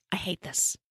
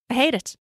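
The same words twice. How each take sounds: First: Soft, understated loathing; muted disgust. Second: HATE hit higher, firm verdict; emphatic disgust. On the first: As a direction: say it softly, as a private verdict. Narrator's own verdict, first muttered low. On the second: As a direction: punch the word hate with raised pitch. Same verdict repeated with more force. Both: A narrator's reading.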